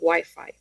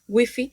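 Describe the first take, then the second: First: The word is said with English pronunciation. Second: The word is said with Spanish pronunciation. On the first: "la pronunciación real del inglés" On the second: "no van a decir wifi"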